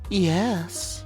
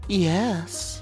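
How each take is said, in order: First: The word is said in a clear voice. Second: The same.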